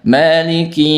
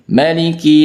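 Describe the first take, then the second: First: The first vowel is held long. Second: The first vowel is kept short. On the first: This follows the reciter's usual reading. "Kalau kita baca panjang" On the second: This follows another transmitted reading. "Kalau dalam riwayat lain bisa dibaca pendek"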